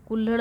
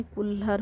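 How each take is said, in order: First: कुल्हड़ ending in a flapped ड़; wrong ending. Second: कुल्हड़ ending in plain र, kulhar; corrected ending. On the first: Teacher rejecting the common form, कुल्हड़ with final ड़. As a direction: curl the tongue for the last sound of कुल्हड़. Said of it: "ड़ नहीं रहता है". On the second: Teacher giving the correct form, कुल्हड़ with final र. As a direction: swap the flap in कुल्हड़ for a simple r. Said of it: "बल्कि र रहता है". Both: Shown as a demonstration.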